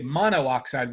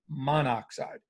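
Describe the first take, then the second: First: The o sound is said twice, mono-oxide. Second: The o sound is said once, monoxide. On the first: The speaker calls it wrong. "we won't say monoxide" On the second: The speaker calls it right. "we'll say monoxide"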